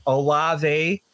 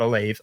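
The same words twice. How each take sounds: First: Olave said as oh-LAH-vay; correct pronunciation. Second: Olave said as oh-LAVE, lower; wrong pronunciation. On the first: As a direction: say Olave in three syllables ending in vay. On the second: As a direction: say Olave rhyming with wave. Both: Shown as a demonstration. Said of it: "not Olave".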